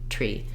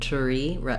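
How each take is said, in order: First: The T and R blend into one sound. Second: A short vowel separates the T from the R. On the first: The speaker calls it right. "these blends really do come together as one sound" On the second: The speaker calls it wrong. "I'm kind of going through a schwa sound before my R"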